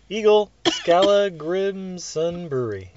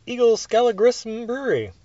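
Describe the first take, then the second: First: Slowly, each word spelled out carefully; slow careful reread. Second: Said in the usual way. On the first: Real, not acted. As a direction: read the name again, carefully and slowly.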